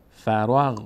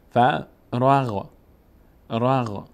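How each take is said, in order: First: Said in the usual way. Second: فراغ drawn out very slowly, sounds joined; slow blended reading. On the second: Shown as a demonstration. Teacher models فراغ very slowly for learners. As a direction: stretch فراغ slowly so the ر leans on the غ. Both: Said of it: "ر باید بچسبه به غین".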